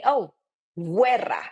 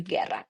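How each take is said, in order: First: Guerra with the U said like a W, wer-ra; mispronounced guerra. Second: Guerra with a hard G and silent U; correct guerra. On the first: Retold or imitated. Teacher mimicking students' common mistake. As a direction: imitate learners misreading guerra. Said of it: "A lot of people ... will say". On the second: Shown as a demonstration. Teacher correcting the students' mistake. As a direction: say guerra plainly, no W sound. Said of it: "No, it's just".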